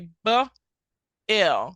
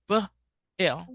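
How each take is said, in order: First: The two sounds are said slowly, apart. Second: The two sounds are said quickly, closer together. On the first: "when it's far away from each other, you have to say B L" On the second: "So say it faster"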